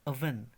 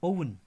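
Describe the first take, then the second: First: The word starts with an 'uh' vowel. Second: The word starts with an 'oh' vowel. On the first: The speaker calls it right. "Right pronunciation is अ वे नो" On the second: The speaker calls it wrong. "इसको हम आमतौर पर पढ़ते हैं ओवन"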